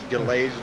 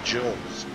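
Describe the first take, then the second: First: The first sound is a hard G. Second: The first sound is like a J. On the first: The speaker calls it wrong. "It looks like I would pronounce it Galaise" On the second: The speaker calls it right. "the G sounds like a J"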